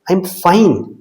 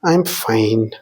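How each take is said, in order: First: It is said in a curt, dismissive tone. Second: It is said in a sad, depressed tone. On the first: The speaker wants to be left alone. "എന്നെ bother ചെയ്യല്ലേ എന്തെങ്കിലും ആവട്ടെ" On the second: The speaker is actually unhappy. "രണ്ടാമത്തേതിൽ ഒരു സങ്കടമോ അല്ലെങ്കിൽ ഒരു depressed രൂപത്തിലുള്ളതായിരുന്നു"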